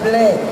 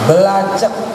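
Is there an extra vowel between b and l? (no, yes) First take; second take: no; yes. First: The consonants are said together without extra vowels. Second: Extra vowels are inserted between the consonants. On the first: The speaker calls it right. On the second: The speaker calls it wrong. "dia baca belacek, salah"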